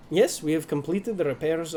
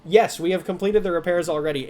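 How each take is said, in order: First: A light, accidental Russian tinge on yes, we have completed the repairs; slipping into Russian accent. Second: Dockmaster voice take. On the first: Dockmaster voice slipping into a Russian accent. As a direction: meant as the dockmaster, drifting Russian. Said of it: "it's going Russian again". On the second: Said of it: "let me get into my voice". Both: Acted.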